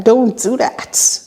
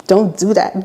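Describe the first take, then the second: First: Slower, higher, stretched-out warning; slow firm repeat. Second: Said in the usual way. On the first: Retold or imitated. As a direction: draw out each word as a firm no. Repeats refusal, slower and firmer.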